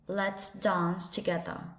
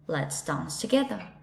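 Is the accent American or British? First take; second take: British; British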